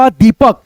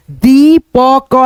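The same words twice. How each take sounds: First: Said in the usual way. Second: दीपक stretched very slowly, the ई held long; drawn out slowly. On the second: Shown as a demonstration. Teacher drawing out दीपक for pupils, very slowly. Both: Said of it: "तो ये क्या बन गया आपका".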